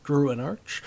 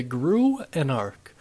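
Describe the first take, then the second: First: "Anarch" ending in CH as in "arch"; tentative "Anarch" with a CH ending, rising; soft CH ending. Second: "Anarch" ending in a hard K sound; "Anarch" pronounced like "an-ark". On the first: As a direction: say "Anarch" to rhyme with "march", questioningly. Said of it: "maybe Anarch?". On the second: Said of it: "how I'm pretty sure it's pronounced". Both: Shown as a demonstration.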